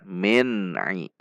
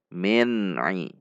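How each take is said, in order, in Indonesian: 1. Bunyi n ditahan sebentar dan dilepas dengan jelas. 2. Bunyi n ditahan sebentar dan dilepas dengan jelas.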